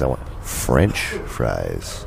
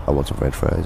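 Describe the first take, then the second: First: Slow, low, French set apart; stress on French. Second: Said in the usual way. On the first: Acted. Offended customer insisting on his order, French slowly stressed. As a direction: lean hard on French, drawing it out slowly. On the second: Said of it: "and he's like".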